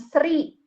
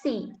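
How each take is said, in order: First: An R sound is heard after the S. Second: No R sound is heard after the S. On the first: The speaker calls it wrong. "bukan sri" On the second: The speaker calls it right. "itu dibacanya si"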